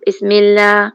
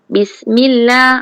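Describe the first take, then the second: First: The first vowel is lax, closer to 'e'. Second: The first vowel is a crisp, clear 'i'. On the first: The speaker calls it wrong. "kalau tak sharp jadi bismillah" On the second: The speaker calls it right. "Sengat kena sharp b"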